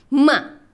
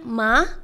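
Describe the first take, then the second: First: The pitch sounds sharp, like anger. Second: The pitch rises like a question. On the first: "yang keempat tuh kayak orang marah" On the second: "nada yang kedua tuh naik kayak nanya"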